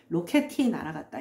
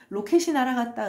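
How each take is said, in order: First: The consonant before 이 sounds like d. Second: The consonant before 이 sounds like s. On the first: The speaker calls it wrong. "이러지 않죠" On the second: The speaker calls it right. "그렇지"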